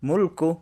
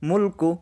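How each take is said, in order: Both takes have the same delivery.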